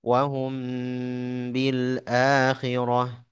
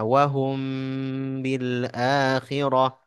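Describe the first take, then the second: Both takes have the same delivery.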